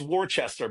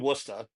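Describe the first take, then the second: First: It is said the way the letters suggest. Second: It is said in a shortened local way. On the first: "if you read Worcester, it's Worcester" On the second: "but it's actually Worcester. That's how we pronounce it"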